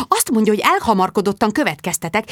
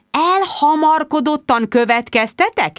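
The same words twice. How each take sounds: First: Mildly indignant hissed report; hissed aside. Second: Slow, high, incredulous echo; indignant challenge. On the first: Bridget to her friends, hand over the mouthpiece, hissed. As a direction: pass it on to your friends, lightly hissed. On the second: Bridget confronting Mark on the phone, indignant. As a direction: throw the accusation back, drawn out and higher. Indignantly throws his accusation back. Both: A narrator's reading.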